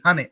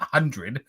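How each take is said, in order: First: It is said as 'hunnet', without the d sound. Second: It is said as 'hundred', with the full d sound. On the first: The speaker calls it right. "H U N N I T, hunnet" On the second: The speaker calls it wrong. "not hundred"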